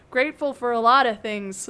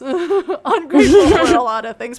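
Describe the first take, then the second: First: Said in the usual way. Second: Laughing. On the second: Acted. Joke variant with laugh.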